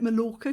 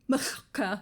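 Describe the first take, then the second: First: The double L is a plain English L. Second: The double L is a hissing Welsh LL. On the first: This is how British people used to say it. "a lot of Brits used to call it Mallorca because we didn't know how to pronounce it" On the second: This is how it would be read in Welsh. "in Wales, double L in the middle of a sentence is so it will be Mallorca"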